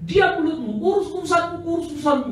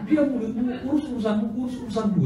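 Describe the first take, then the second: First: High, loud retort to shut her up; sharp rebuke. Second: High, laughing retelling of the retort; rebuke through laughter. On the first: Preacher silencing the protesting woman, loud rebuke. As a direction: snap back, mind your own business. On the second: Preacher retelling his rebuke to the congregation, laughing. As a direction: repeat the rebuke while chuckling. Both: Retold or imitated.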